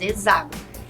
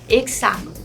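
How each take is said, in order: First: The x is pronounced as a z sound. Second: The x is pronounced as a ks sound. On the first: This is how some regions say it. "usa-se o som de Z no lugar do X" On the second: This is how other regions say it. "Em algumas outras regiões usa-se"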